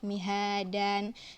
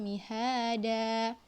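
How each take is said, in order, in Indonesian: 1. Kata itu diakhiri dengan bunyi n tambahan. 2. Kata itu diakhiri vokal terbuka, tanpa n. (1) "Mihadannya itu yang salah ya" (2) "yang benar adalah"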